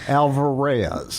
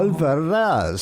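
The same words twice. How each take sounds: First: The r in the name is plain. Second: The r in the name is rolled. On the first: This is the local Indiana pronunciation. "pronounce it the Hoosier, the way the Hoosiers" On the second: This is the original family pronunciation. "am I supposed to roll that R? ... that's really how it's pronounced"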